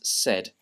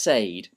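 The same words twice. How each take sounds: First: The vowel sounds like the vowel in set. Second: The vowel sounds like the vowel in say. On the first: The speaker calls it right. "The correct pronunciation is said. Um, a bit like S E D" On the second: The speaker calls it wrong. "you might think that it's pronounced said, but it's not"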